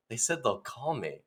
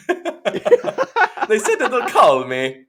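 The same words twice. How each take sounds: First: Soft, understated disappointment; dejected. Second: High, drawn-out wail through laughter; laughing mock wail. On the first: Acted. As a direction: report the letdown quietly. Dejected actor reports failed audition. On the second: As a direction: stretch the letdown into a laughing whine. Replays dejected line, laughing.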